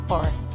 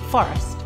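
First: The F is soft and gentle. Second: The F is strong and forceful.

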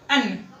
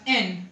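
First: The vowel is a short, reduced schwa sound. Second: The vowel is a full, clear 'e' sound. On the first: "ए N में बी form हो जाएगा छोटा अनार का और ना नलका" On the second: "ए N में स्ट्रॉन्ग फॉर्म हो जाएगा ए एडी का और ना नलका"

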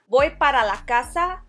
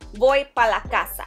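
First: The word 'para' is said with both syllables. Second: The word 'para' is cut to one syllable. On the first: "Instead of saying para" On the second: "cut it short to pa. ... It just sounds faster"

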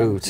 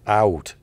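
First: The vowel is a single long oo sound. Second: The vowel glides as a diphthong. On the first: This is the stereotype of how Canadians sound. The speaker calls it wrong. "the one we always hear is oot" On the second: This is how Canadians actually say it. The speaker calls it right. "there's is it called a diphthong?"

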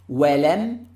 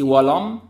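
First: The opening w sound is light and thin. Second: The opening w sound is heavy and full. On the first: The speaker calls it right. "start the letter with the واو مستفلة light" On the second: The speaker calls it wrong. "don't say ولم"

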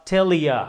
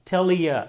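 No difference in how they are said.

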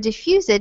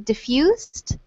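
First: The ending is said as an extra syllable. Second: The ending blends in with a silent E. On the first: The speaker calls it wrong. "instead of saying increased or diffused" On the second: The speaker calls it right. "These both have a silent E here"

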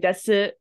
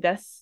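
First: The final u vowel is clearly pronounced. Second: The final u vowel is dropped. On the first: The speaker calls it wrong. "we don't say desu" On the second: The speaker calls it right. "we say des"

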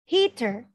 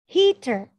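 No difference in how they are said.

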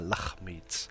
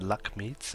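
First: The middle consonant is a throaty kh sound. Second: The middle consonant is a plain k sound. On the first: The speaker calls it right. "And the KH is kh" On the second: The speaker calls it wrong. "it's not the Lakhmids"

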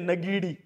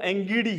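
First: The name begins with a 'na' sound. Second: The name begins with an 'eng' sound. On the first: The speaker calls it wrong. "लेकिन अखबार वाले क्या लिखते हैं" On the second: The speaker calls it right. "वास्तव में वो एंगीडी है"

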